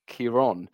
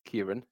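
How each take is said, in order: First: The second vowel is long. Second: The second vowel is short. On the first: The name is spelled with the accent mark. The speaker calls it right. "It tends to elongate the vowel sound" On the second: The name is spelled without the accent mark. The speaker calls it wrong. "his name does not have a fother"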